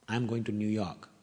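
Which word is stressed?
none. No word is given special emphasis. It is a simple statement. "It's a plain sentence"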